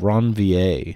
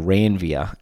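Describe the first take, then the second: First: The name is said the non-Australian way. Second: The name is said the Australian way.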